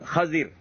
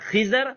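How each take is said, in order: First: The first vowel is a, the second is i. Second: The first vowel is i, the second is a. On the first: "خا کے زبر اور زواد کے زیر کے ساتھ" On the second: "خا کے زیر اور زواد کے زبر کے ساتھ"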